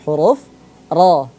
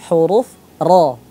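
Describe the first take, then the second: Both takes have the same delivery.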